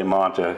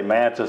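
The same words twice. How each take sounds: First: Manta with a broad ah as in "father"; Manta said the other way. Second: Manta with a flat a as in "man"; Manta said one way. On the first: Host contrasting local pronunciations, Manta with a broad ah. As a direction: say Manta with an open ah. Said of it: "some people say Manta". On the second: Host contrasting local pronunciations, Manta with a flat a. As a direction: say Manta with the vowel of "cat". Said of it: "I've heard some people say Manta". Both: Shown as a demonstration.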